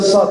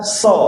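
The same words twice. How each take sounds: First: The sound is thick, with the tongue raised back. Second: The sound is thin, like a plain s. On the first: The speaker calls it right. "uji kita so bukan so" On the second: The speaker calls it wrong. "Kalau so itu masih sin itu"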